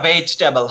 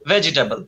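First: The middle vowel is dropped, leaving three syllables. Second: The middle vowel is pronounced as a full syllable. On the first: The speaker calls it right. "ইটা তো উচ্চারণ হবে না" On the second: The speaker calls it wrong. "V for ভেজিটেবল"

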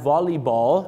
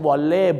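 First: The first part ends with an 'ee' vowel sound. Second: The first part ends with an 'ay' vowel sound. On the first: The speaker calls it right. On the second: The speaker calls it wrong.

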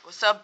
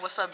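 First: The greeting is said with strong sassy attitude. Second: The greeting is said plainly, without attitude. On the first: The speaker calls it right. "You gotta, ... you gotta say it with an attitude" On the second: The speaker calls it wrong. "you can't be like"

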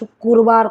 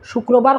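First: It is said with Sylheti dialect pronunciation. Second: It is said with standard Bengali pronunciation. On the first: "আমরা শুক্রবার কই" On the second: "শুক্রবার কই না"

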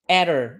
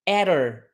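The two takes are said the same way.

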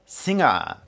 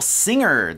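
First: No r sound is heard at the end. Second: An r sound is clearly heard at the end. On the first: "静香さんが言ったのはsinger。R の発音がないんですよね" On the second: "アメリカ英語で言うとsinger ですよね。完全にR の発音がする"

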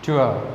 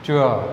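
First: The vowel glides from oo into uh. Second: The same.

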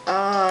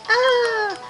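First: It is said flatly and quietly. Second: It is said loudly with energy.

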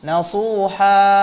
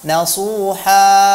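Both takes have the same delivery.

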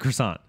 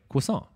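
First: The word has an Americanized pronunciation. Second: The word has a French-style pronunciation. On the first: "because I'm a fucking honky. ... Because America?" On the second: "You're saying it technically correctly"

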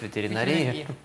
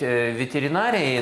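First: The stress is on the last syllable. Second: The stress is on the third syllable. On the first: This is how people in the profession say it. "сами ветеринары говорят ветеринарии" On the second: This is the standard form. "по нормам надо говорить ветеринарии"

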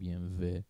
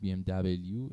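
First: The last letter is said as a short v sound. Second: The last letter is said as double-u. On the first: The speaker calls it right. "فهمیدیم چرا میگیم بی ام و" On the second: The speaker calls it wrong. "بی ام دبلیو اشتباهه"

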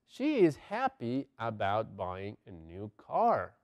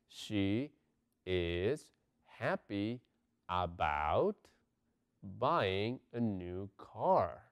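First: The sentence is spoken at a normal pace. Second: The sentence is spoken slowly and carefully.

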